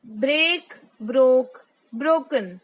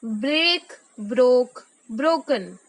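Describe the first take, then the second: No difference in how they are said.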